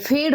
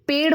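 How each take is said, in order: First: The first consonant is an aspirated 'ph'. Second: The first consonant is an unaspirated 'p'. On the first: This is the Awadhi dialect form. "फेड़ बोलते हैं अवधि में" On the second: This is the standard Khari Boli form. "पेड़ बोलते हैं हम"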